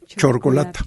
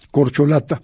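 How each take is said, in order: First: The word begins with a ch sound. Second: The word begins with a k sound. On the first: The speaker calls it wrong. "algunas personas dicen" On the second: The speaker calls it right. "que es la forma correcta"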